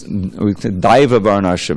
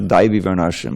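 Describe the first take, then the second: First: The first word ends with an 'ah' sound. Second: The first word ends with an 'ee' sound. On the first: The speaker calls it right. "when it's Daiva Varnashram" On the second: The speaker calls it wrong. "it's not Daivi Varnashram, we had mispronounced that"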